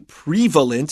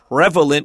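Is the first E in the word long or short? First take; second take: long; short. First: The first E is a long vowel. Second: The first E is a short vowel. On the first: The speaker calls it wrong. "We don't say prevalent" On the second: The speaker calls it right. "with a short E sound"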